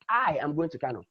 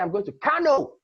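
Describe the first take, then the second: First: The stress falls on the word I. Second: The stress falls on the word Kano. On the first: The speaker, not anyone else, is going. "means that it is I" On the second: The destination is this place, not another. "it is Kano I'm going to"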